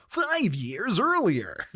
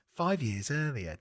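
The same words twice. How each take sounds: First: Drawn-out, higher American title read; hammed-up American caption voice, very slow. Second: Said in the usual way. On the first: Shown as a demonstration. Asking if film titles are read this way, exaggerated American voice. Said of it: "Do you read that as". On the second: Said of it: "do you read every title".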